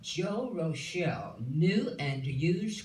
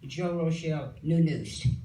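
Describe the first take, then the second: First: Each word is clearly separated and articulated. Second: The words run together into slurred sounds. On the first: The speaker calls it right. "I'm going to say it correctly" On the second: The speaker calls it wrong. "it came sounding like Joe Rochelle new news"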